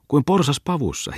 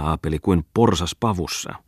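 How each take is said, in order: First: "kuin porsas pavussa" thrown back much higher, mocking; mocking echo. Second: Said in the usual way. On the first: Muttinen echoes Bungman's words back, high and mocking.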